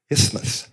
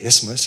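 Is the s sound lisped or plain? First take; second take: lisped; plain. First: The s is pronounced with a lisp. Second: The s is pronounced as a plain s. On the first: "I made a slip of my tongue and I lisped" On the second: "instead of isthmus"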